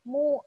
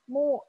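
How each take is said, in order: Both takes have the same delivery.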